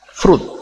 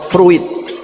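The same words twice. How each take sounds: First: The 'i' sound is silent. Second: The 'i' sound is pronounced. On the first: The speaker calls it right. "The I is not red" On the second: The speaker calls it wrong. "not fruit"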